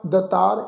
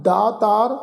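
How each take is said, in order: First: ਦਤਾਰ with a short first vowel; wrong way, ਦਤਾਰ; wrong pronunciation. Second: ਦਾਤਾਰ with a long first aa; right way to say ਦਾਤਾਰ; correct pronunciation. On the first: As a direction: clip ਦਤਾਰ to show the mistake. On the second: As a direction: say ਦਾਤਾਰ with the kanna held. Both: Shown as a demonstration. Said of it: "ਇਸ ਢੰਗ ਨਾਲ ਉਚਾਰਨ ਨਹੀਂ ਕਰਨਾ".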